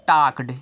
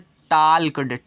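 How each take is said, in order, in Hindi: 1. इस शब्द में L की आवाज़ साइलेंट है। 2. इस शब्द में L की आवाज़ बोली जाती है। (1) "इसको पढ़ते हैं टाक्ड" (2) "इसको मत पढ़ना टाल्कड"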